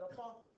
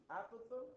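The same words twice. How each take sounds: First: "apothem" as uh-POTH-um; second-syllable stress. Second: "apothem" as AP-uh-thum, rising at the end; first-syllable stress. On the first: Teacher quoting other English teachers' variant, "apothem" stressed on the second syllable. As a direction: reduce the first vowel and stress POTH in "apothem". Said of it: "some others will call it apothem". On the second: Teacher quoting some English teachers' variant, "apothem" stressed on the first syllable. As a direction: put the stress on the opening short a of "apothem". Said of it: "some of them will use one".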